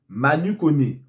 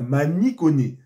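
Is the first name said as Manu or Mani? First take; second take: Manu; Mani. First: The first name ends in an 'u' vowel. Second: The first name ends in an 'i' vowel. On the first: The speaker calls it wrong. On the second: The speaker calls it right.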